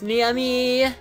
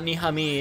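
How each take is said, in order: First: The name is said in a girlish, lilting voice. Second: The name is said in a plain, ordinary voice. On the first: The speaker calls it right. "with a different inflection" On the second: The speaker calls it wrong. "It's not Niami"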